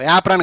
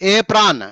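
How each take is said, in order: First: The first vowel sounds like 'a' in 'cat'. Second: The first vowel sounds like 'ay' in 'day'. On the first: The speaker calls it wrong. "యాప్రాన్ కాదు" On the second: The speaker calls it right.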